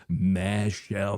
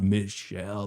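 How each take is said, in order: First: Michelle said as "Mashell", open a in the first syllable; special pronunciation. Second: Said in the usual way. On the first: Shown as a demonstration. Streamer teasing Michelle's name, says "Mashell". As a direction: say Michelle with "ma" not "mi". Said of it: "I love that your name is Michelle". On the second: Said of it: "not Michelle".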